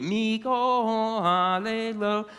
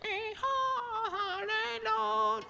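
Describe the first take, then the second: First: Slow chanted line; sung, draw it out as a song; sung Hebrew line. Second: Very high, soft slow parrot squeak; squeaky parrot. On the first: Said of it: "I tried to continue". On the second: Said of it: "the parrot squeaked right after me". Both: A narrator's reading.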